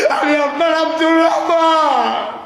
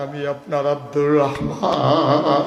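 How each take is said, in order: First: High, loud wailing cry; tearful shout. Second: Last word long drawn and wavering; emotional plea. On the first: Companion revealing himself to the Prophet, loud tearful wail. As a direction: cry out who you are at full voice. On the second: Companion revealing himself to the Prophet, drawn-out emotional chant. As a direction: reveal yourself, stretching the name out. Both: Acted.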